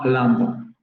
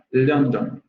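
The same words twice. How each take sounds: First: London said with an open uh sound, like Landon, slowly; the standard London, with an open, unrounded vowel; London con vocal abierta, como Landon, despacio; standard southern vowel. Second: London said with a rounded o, like Lohndon; the northerner's London, with a close-mid o; London con o media cerrada, a la manera del norte; northern English vowel. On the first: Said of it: "no London". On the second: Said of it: "con la vocal media cerrada". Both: Shown as a demonstration.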